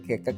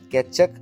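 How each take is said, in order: First: The middle consonant is a hard 'k' sound. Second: The middle consonant is a 'ch' sound. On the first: The speaker calls it wrong. "കെക്കക് അല്ല" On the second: The speaker calls it right. "കെച്ചക് ആണ് ഇതിനെ പറയാമെന്ന്"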